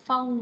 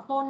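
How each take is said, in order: First: "phone" with gliding O, then a final N; correct phone. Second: "phone" with a plain undiphthonged O; wrong phone. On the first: Teacher corrects the class, clearly pronounced "phone". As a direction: glide the O of "phone" and close on N. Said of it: "Âm O, sang thêm N". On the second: Teacher warns class of a mistake, mispronounced "phone". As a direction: say "phone" the mistaken way, vowel not gliding. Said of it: "không là phone đó bạn". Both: Shown as a demonstration.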